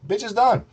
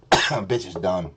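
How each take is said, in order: First: High, punchy repeat of the verdict; high-pitched dismissal. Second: Low, slow verdict; low dismissal. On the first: Repeats it much higher. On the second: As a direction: drop it low and draw it out. Dismisses co-host, first low. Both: Real, not acted.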